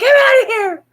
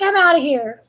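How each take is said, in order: First: Much higher, louder laughing cat voice; voicing the cat. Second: Higher, lightly voiced sassy cat; voicing the cat. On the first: Owner voicing cat leaving again, laughing high cat voice. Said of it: "She's like". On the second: Owner voicing cat leaving, lightly voiced sassy cat. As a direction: give the cat a huffy little voice. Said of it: "she's like".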